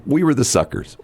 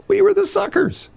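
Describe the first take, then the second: First: Said in the usual way. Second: "We were the suckers" with "were" pitched much higher and punched; indignant emphasis. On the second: Real, not acted. Host repeating the point to his co-host, much higher indignant stress. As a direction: hit "were" hard, outraged.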